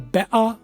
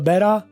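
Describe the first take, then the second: First: It is said with a British accent. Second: It is said with an American accent.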